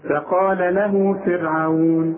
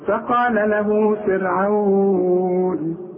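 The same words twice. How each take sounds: First: The final long vowel is held for two counts. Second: The final long vowel is held for four counts. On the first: "حركتين" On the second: "أربعة"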